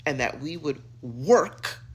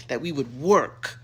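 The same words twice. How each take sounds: First: Said in the usual way. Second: "work" punched louder; stress on work. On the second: Shown as a demonstration. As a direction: hit the word "work" hard. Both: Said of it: "You see what I did there?".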